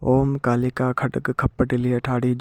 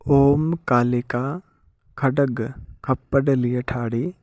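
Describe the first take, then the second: First: It is recited quickly, flowing without stops. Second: It is recited slowly, with stops between parts. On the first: This is how it is said when actually used. "रुक रुक कर नहीं बोला जाता" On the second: It is said this way so listeners can follow. "आराम आराम से बोल रहा हूँ ताकि आप सबको समझ आए"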